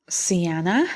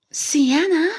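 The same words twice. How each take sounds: First: Said in the usual way. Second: A startled gasp, pitch up; shocked gasp on the name. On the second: A narrator's reading. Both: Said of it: "he gasped".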